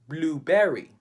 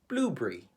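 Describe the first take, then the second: First: It is said in a Filipino English accent. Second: It is said in a British English accent. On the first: "We pronounce it" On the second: "The Brits would say"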